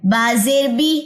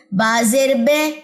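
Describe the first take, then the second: First: بازر بی with a clear English ee at the end; correct zer. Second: بازر بے drawn out slowly, ending in an ay sound; wrong zer. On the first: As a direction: say بی as a long bright ee, jaw pulled back. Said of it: "جبڑا پیچھے کی طرف گئی ہے". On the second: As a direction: let بے slide into a lax ay, jaw not pulled back. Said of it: "جو line پیچھے کی طرف نہ لے کے جاؤں". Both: Shown as a demonstration.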